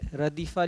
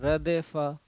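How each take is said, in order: First: The second vowel is a long 'ee'. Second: The second vowel is an 'e' sound. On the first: The speaker calls it right. "जैसे रदीफ़ा लिखा हुआ है" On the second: The speaker calls it wrong. "उस्तानी जी लोग पढ़ती हैं रदेफ़ा"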